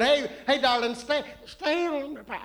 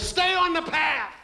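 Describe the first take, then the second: First: Put-on sweet old grandma calling, slightly higher. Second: Grandpa voice. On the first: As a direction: coo it like a grandma. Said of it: "say it in grandma's voice". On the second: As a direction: bellow it like a grumpy grandpa. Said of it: "let me say it in grandpa's voice". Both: Shown as a demonstration.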